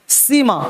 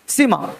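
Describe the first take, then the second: Both takes have the same delivery.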